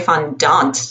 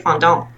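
First: The word is pronounced the English way. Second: The word is pronounced the French way. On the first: "I feel in French, you wouldn't say fondant" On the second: "You'd say fondant"

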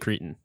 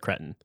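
First: It uses the North American vowel pronunciation. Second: It uses a non-North American vowel pronunciation. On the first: "That's how we say it in North American English. We say cretin" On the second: "We don't say cretin"

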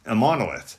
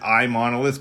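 First: The name begins with an 'im' sound. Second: The name begins with an 'eye' sound. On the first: The speaker calls it right. "is like impossible, the word impossible. So that's a monolith" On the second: The speaker calls it wrong. "I didn't want to pronounce it iMonolith because we're not an Apple product"

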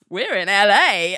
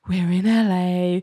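First: It is said cockily, with a smile. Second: It is said idly, without interest.

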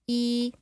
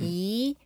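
First: The pitch stays level throughout. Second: The pitch goes up. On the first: "E is like flat" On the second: "E is rising"

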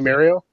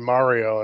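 First: Mario is said the Canadian way. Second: Mario is said the American way.

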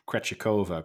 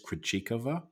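First: The name is said in an Anglicized way. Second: The name is said in a Czech way. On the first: The speaker calls it wrong. "I've heard it said Krejcikova quite a bit, but I think that's the westernization" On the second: The speaker calls it right. "I think is the correct way of saying it in, she's Czech"

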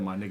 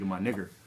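First: The word ends in a soft 'ah' sound. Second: The word ends in a hard 'er' sound.

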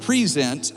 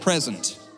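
First: The stress falls on the second syllable. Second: The stress falls on the first syllable. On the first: It is a verb: to bring or offer someone. "Instead of present" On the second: It is a noun: a gift. "I read it present"

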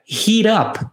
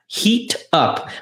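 First: It is said fast and linked together. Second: It is said slowly and separately.

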